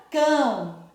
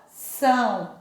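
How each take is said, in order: First: "cão" slowly, with a hard k; hard C sound. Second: "são" with a clear s; soft S sound. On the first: Teacher showing C with ão, hard k in "cão". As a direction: stretch "cão", starting on a k. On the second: Teacher showing cedilla with ão, clear s in "são". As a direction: say "são" starting on an s. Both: Shown as a demonstration. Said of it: "Mudou o som".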